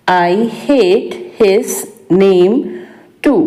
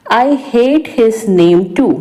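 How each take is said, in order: First: Slow, word by word, for learners; slow repeat. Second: Said in the usual way. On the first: Shown as a demonstration. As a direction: spell out "I hate his name too" slowly. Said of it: "slow repeat for learners". (धीरे-धीरे दोहराना) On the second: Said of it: "teacher says sentence, then repeats".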